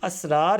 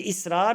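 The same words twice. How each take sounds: First: "اسرار" as asrār, opening on a short a; correct reading asrār. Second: "اسرار" as isrār, opening on a short i; mistaken reading isrār. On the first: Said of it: "الف پر زبر آئے گی". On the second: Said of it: "یہ اسرار نہیں ہے". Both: Shown as a demonstration.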